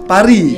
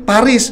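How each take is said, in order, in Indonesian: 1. Itu diucapkan dengan pengucapan Prancis. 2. Itu diucapkan sesuai dengan huruf yang tertulis.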